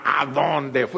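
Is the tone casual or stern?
stern. It is asked in a stern mother's tone.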